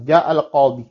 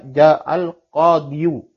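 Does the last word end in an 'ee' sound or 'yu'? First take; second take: ee; yu. First: The last word ends in a long 'ee' sound. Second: The last word ends in an added 'yu' syllable. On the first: The speaker calls it right. "ja'al qadi tidak dibaca ja'al qadiyu" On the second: The speaker calls it wrong. "tidak dibaca ja'al qadiyu ya karena sekali lagi dikatakan siqal"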